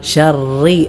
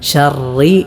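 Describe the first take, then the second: No difference in how they are said.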